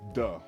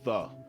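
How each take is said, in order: First: The word begins with a hard d sound. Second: The word begins with a soft th sound. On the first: The speaker calls it right. "It says "duh," like D A, the Bronx. That's how you say the Bronx" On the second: The speaker calls it wrong. "We don't say the"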